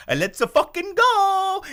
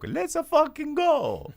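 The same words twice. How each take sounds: First: Put-on high, loud, slow Italian Mario accent; Mario catchphrase. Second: Put-on high, slow Italian Mario accent; drawn-out Mario cheer, Italian accent; Mario catchphrase. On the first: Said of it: "he legitimately talked like Mario". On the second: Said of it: "this episode's dedicated to Jacopo".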